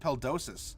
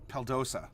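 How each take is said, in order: First: The final s sound is pronounced. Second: The final s sound is left silent. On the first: The speaker calls it wrong. "what's this Suf Peldosis?" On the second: The speaker calls it right. "You you don't pronounce the end"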